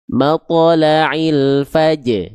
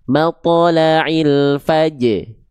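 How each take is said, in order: Both takes have the same delivery.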